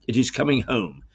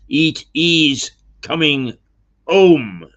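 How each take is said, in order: First: It is said with a plain English accent. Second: It is said with a mock French accent. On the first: It is the usual fans' phrase. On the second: It jokes about the French rivals.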